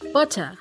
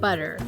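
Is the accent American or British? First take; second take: British; American. First: It is spoken in a British accent. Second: It is spoken in an American accent. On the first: "British people would say" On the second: "Americans would say"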